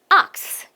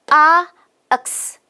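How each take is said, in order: First: The sounds are run together quickly in one beat. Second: The sounds are said slowly and apart.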